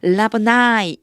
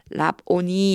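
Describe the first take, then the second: First: The word ends with an 'eye' vowel sound. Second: The word ends with an 'ee' vowel sound. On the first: "라보나이 이렇게 읽어 주시면 돼요" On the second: "뭐라고 써 있냐면 라보니 이렇게 돼 있는데요"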